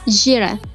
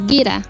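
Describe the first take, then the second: First: The first consonant is a zh sound. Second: The first consonant is a hard g sound. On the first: This is the Kandahar pronunciation. "در ولایت های قندهار ژ تلفظ میشه" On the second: This is the central provinces' pronunciation. "در ولایت های مرکزی گ تلفظ میشه"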